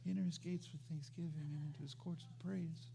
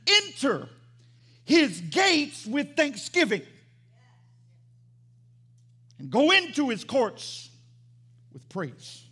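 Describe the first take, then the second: First: It is read quietly and timidly. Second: It is read boldly and forcefully.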